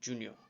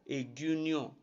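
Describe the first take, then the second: First: The name begins with a consonant sound. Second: The name begins with an added vowel sound. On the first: This is the English way of saying the name. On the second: This is how an Edo speaker says the name.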